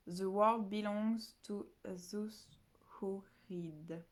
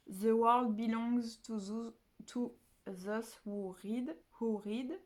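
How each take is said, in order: First: Second careful go at an English quote; English accent. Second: Slow French-accented English, carefully read. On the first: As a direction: try the English line again slowly. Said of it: "Je sais pas du tout si je le prononce bien". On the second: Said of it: "J'ai un accent anglais absolument dégueulasse". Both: Shown as a demonstration.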